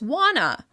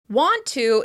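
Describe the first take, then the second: First: The words are reduced and run together. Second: Both words are said fully and separately.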